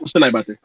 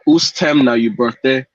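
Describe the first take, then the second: First: The phrase is spoken quickly and run together. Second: The phrase is spoken slowly and clearly. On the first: "you can't pick up which one I said" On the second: "That's me slowing it down"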